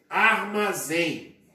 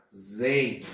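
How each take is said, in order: First: Said in the usual way. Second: Syllable by syllable. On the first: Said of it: "Olha lá". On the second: Shown as a demonstration. Teacher breaking armazém down for students, syllable by syllable. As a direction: give each syllable of "armazém" on its own. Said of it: "dividimos em sílabas".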